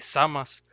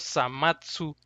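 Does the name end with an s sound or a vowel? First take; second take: s sound; vowel. First: The name ends with an s sound. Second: The name ends with a ts sound and vowel. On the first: The speaker calls it right. "más apegado a la pronunciación original en japonés, así" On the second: The speaker calls it wrong. "algunos Samatsu"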